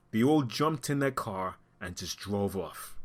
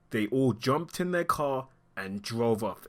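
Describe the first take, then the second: First: Said in the usual way. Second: Slowed down, word by word; slow emphatic repeat. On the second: Real, not acted. Commentator stressing that bystanders left the body, slow and deliberate. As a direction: spell out the desertion slowly so it sinks in.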